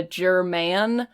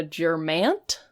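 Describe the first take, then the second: First: German said normally, slowly; German, ending on a clean n; correct German. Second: Germant with an added t at the end, slowly; Germant, a mock mispronunciation; wrong Germant. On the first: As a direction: say German with no t at the end. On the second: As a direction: say Germant, tacking a t after the n. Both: Shown as a demonstration. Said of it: "to be a German, not a Germant".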